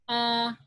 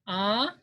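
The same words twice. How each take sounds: First: The pitch stays level and flat. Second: The pitch rises upward. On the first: "this is flat" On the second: "this is upward"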